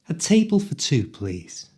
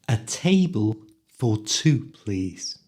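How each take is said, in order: First: It is spoken quickly, at full speed. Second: It is spoken slowly and carefully.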